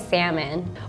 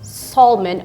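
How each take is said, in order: First: The L in the word is silent. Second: The L in the word is sounded. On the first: The speaker calls it right. "I would just say salmon" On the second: The speaker calls it wrong. "when I hear people say salmon, it makes me cringe"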